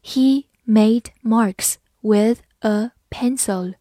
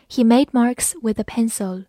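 First: Slow, evenly spaced words; slow careful reading. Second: Said in the usual way. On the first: Shown as a demonstration. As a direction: read slowly, a pause after each word. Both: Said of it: "好，慢慢来读".

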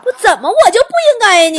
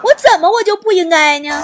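First: 提高嗓门不服地质问; 冲着想象中的人喊着反问; 大声质问. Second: 边笑边重复反问，重音在“我”; 自嘲地笑着再问一遍; 笑着反问. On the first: (被嘀咕后大声不服地质问) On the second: (笑着自嘲再问一遍) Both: Acted. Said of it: "重复自问".

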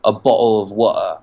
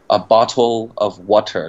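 First: "a bottle of water" with the T's replaced by glottal stops; London street glottal stops. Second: "a bottle of water" with clear T sounds, slowly; slow textbook British; careful full T. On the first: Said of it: "然后用喉音停顿". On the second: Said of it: "这两个特的音都会省的". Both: Shown as a demonstration.

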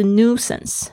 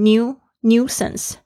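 First: "nuisance" American style, plain noo-sance; American "nuisance", no y glide; American pronunciation. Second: "new, nuisance" with a British yoo sound, nyoo-sance; British "nuisance", glide before the u; British pronunciation. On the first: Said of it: "美式发音是nuisance". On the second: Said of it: "英式发音会发成new". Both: Shown as a demonstration.

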